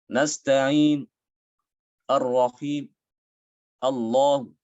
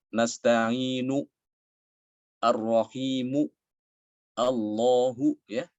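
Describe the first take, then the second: First: Nasta'in, ar-rahim, Allah with the final u cut to a trace; shortened vowels. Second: Nasta'inu, ar-rahimu, Allahu slowly, each final u fully sounded; full vowel endings. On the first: Teacher showing raum after the full version. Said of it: "domahnya itu dikurangi". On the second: Teacher recalling the Iqra reading, slow and full. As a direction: read each word out with a full u. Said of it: "seperti dulu ketika kita baca Iqra". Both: Shown as a demonstration.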